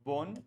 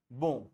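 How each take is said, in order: First: "bon" said as "bonne", ending on a clear n; "bon" with the n pronounced. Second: "bon" with a nasal vowel and no n heard; "bon" nasal, n silent. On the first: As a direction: show the spelling with double n, sounded n. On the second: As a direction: show the single-n nasal "bon". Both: Shown as a demonstration. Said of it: "फ़र्क है pronunciation में".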